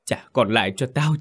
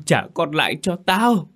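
First: First demand, only mildly raised; mother demands her son back, first time, restrained; wailing demand. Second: Repeated demand much higher, breaking into a wail; mother repeats her demand, now wailing. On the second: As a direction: cry it out rawer the second time. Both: A narrator's reading. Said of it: "vừa gào vừa rằng".

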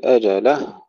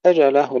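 First: أجله with the لام shoved into a doubled هاء; faulty أجله, هاء over-stressed; pushed lam. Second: Raised, careful أجله, لام not pushed; unpushed lam. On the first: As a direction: push the لام and tighten the final هاء of أجله. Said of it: "لا نقول". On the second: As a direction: let the لام of أجله go gently into the هاء. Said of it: "لا ندفع اللام". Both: Shown as a demonstration.

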